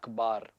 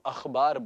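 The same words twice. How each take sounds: First: The kh is a plain aspirated stop. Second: The kh is a throaty fricative sound. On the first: The speaker calls it wrong. "Normal routine life में हम लोग बोलते हैं" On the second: The speaker calls it right. "इसको हम अखबार बोलेंगे। अखबार जो है वो सही शब्द है।"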